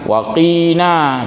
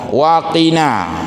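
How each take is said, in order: First: The vowel in 'qi' is drawn out long. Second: The vowel in 'qi' is kept short. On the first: The speaker calls it wrong. "jangan waqina, itu sering mungkin tersalah baca" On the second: The speaker calls it right. "tolong tidak memanjangkan pada qi-nya"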